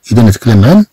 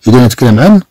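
No difference in how they are said.

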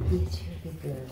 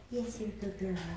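First: Gentle cooing praise. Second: Softer gentle cooing. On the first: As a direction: coo it to calm a little one. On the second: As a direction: hush it lovingly, almost under breath. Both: Real, not acted. Soothing pet monkey.

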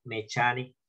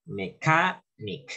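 First: "mechanic" with ch as in chair, me-CHA-nik; Spanish-style misreading. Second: "Mechanic" slowly as me-KA-nik; correct pronunciation. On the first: Teacher warns students off it, "mechanic" mispronounced with a Spanish ch. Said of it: "leyendo en español, no". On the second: Teacher corrects students, "Mechanic" slow with hard k and stress on KA. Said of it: "acento en la A". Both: Shown as a demonstration.

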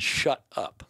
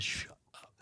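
First: Retold shut up. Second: Retold repeat. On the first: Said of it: "He said". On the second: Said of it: "I said".

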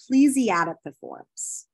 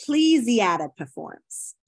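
First: Said in the usual way. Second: Plesiadipiforms said slowly, syllable by syllable; slow careful pronunciation. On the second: Shown as a demonstration. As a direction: spell out Plesiadipiforms slowly for students.

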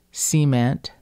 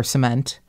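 First: "cement" as SEE-ment; dialect pronunciation. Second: Said in the usual way. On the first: Shown as a demonstration. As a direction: stress the first syllable of "cement", with a long ee. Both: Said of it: "three words that tripped me up".

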